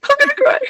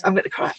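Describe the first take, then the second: First: High, laughing tearful voice, much higher; real emotion spilling over into laughter; laughing near tears. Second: Said in the usual way. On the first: Real, not acted. Guest moved by talk of self-healing, laughing through tears.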